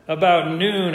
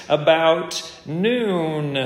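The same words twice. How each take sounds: First: Said in the usual way. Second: Drawn out slowly, about noon stretched; lingering on about noon to let it sink in; slow emphasis. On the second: Shown as a demonstration. Preacher reading the scripture to the congregation, drawn out slowly.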